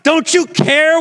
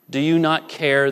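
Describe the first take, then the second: First: The question is asked with urgent intensity. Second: The question is asked calmly and evenly. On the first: The speaker calls it right. "A little bit of more intensity" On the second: The speaker calls it wrong. "I said it that way, but that's not how the disciples said it"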